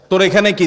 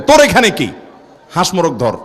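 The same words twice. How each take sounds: First: Said in the usual way. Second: Scolding grandparent. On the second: Acted. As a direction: shoo the boy off like a cross grandfather. Grandparents scold the boy who broke fast.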